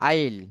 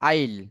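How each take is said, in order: First: The words are shortened into one syllable. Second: The same.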